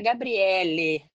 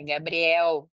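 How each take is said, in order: First: The name ends with an extra final vowel. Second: The name ends without an extra final vowel. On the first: The speaker calls it wrong. "não é Gabriele" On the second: The speaker calls it right. "é Gabriel"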